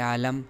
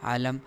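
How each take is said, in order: No difference in how they are said.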